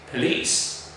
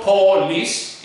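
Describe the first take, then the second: First: Police with a weak schwa first syllable; correct pronunciation. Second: Police with a full "po" vowel; wrong pronunciation. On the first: Teacher modelling police with a schwa. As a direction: say police as "puh-lees". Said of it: "the first syllable has a schwa". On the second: Teacher showing the learners' wrong police, full vowel. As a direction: say police starting with a clear "poe". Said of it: "so it's not police". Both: Shown as a demonstration.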